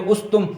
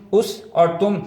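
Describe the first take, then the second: First: اس تم run together as one unit; اس تم in one go, no break between; read together. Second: اس and تم as two detached words; read separately. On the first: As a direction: join اس straight onto تم. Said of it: "اگر اس کو اکٹھا پڑھیں گے". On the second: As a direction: set اس apart from تم with a clear break. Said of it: "الگ الگ بھی سکھائیں". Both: Shown as a demonstration.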